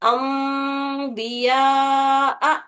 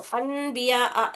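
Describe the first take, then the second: First: The nasal before 'b' is a held nasal 'm'. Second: The nasal before 'b' is a plain 'n'. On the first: The speaker calls it right. "दो हरकत गुन्ना भी करना, नाक से दो हरकत तक आवाज निकालना ... वैसा पढ़ना है" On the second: The speaker calls it wrong. "अन नहीं पढ़ना है इसको, अन बिया अ नहीं"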